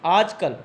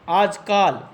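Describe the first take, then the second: First: आजकल with a short a in the second syllable; आजकल, the correct form. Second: आजकाल with a long aa in the second syllable; आजकाल, the mistaken form; wrong long ka. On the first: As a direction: say आजकल with a quick short kal. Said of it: "इसका शुद्ध रूप क्या है". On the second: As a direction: say आजकाल, stretching the kaa. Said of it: "आजकाल ये एक अशुद्ध रूप है". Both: Shown as a demonstration.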